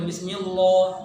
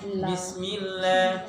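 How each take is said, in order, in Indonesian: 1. Bunyi l-nya berat dan tebal. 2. Bunyi l-nya ringan dan tipis. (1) "bukan bismillah" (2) "dia bisa menjadi la"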